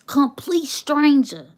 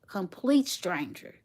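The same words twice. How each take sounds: First: Louder, higher and slow with amazement; emphatic exclaim. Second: Said in the usual way. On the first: Real, not acted. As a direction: hammer home the disbelief. Emphatic repeat of the story's point.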